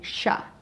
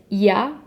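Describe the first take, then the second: First: The y sound is said like sh. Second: The y sound is soft and light. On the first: This is how it sounds in Argentina. "in Argentina, they do more like sha" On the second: This is how it sounds in Spain. "in Spain, they pronounce it a little bit softer"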